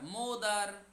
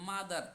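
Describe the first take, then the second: First: The first vowel sounds like 'o'. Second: The first vowel sounds like 'a'. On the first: The speaker calls it wrong. "না না না" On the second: The speaker calls it right. "মা মানে আ sound"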